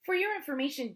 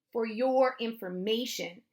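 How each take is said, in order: First: Higher, know-it-all teasing; mocking correction. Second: Slow, with weight on "your"; pointed retort. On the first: Sister correcting her brother about puppies, high and mocking. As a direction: correct them in a high, superior tone. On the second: Brother throwing sister's phrase back, slow stress on "your". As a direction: lean on "your" and draw the phrase out. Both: A narrator's reading.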